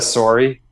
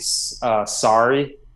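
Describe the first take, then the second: First: The word is said with a Canadian accent. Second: The word is said with an American accent. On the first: "Instead of sorry" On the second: "I say sorry now"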